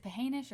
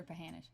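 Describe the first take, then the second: First: Pahanish with second syllable like "hay"; long A in the middle of Pahanish; pronunciation variant. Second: Pahanish with second syllable like "ha" in "hand"; short A in the middle of Pahanish; pronunciation variant. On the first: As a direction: say Pahanish as puh-HAY-nish. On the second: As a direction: say Pahanish as puh-HAN-ish. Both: Shown as a demonstration. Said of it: "I've heard it both ways".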